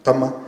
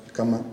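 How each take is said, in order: First: "cama" with its first consonant changed, as in the word for "sabroso"; contrasting second sound. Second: "cama" with its first consonant as in the word for "voy"; contrasting first sound. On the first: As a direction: demonstrate "cama", the second contrasting sound, set apart by a pause. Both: Shown as a demonstration. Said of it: "La diferencia del sonido".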